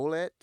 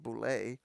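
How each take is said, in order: First: The word ends with a 'let' sound. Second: The word ends with a 'lay' sound. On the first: The speaker calls it wrong. "I always say" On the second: The speaker calls it right. "pronounced boule"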